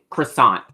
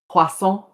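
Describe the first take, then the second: First: It is pronounced the ordinary English way. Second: It is pronounced the French way. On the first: The speaker calls it wrong. "we don't say croissant" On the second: The speaker calls it right. "in France we say we say"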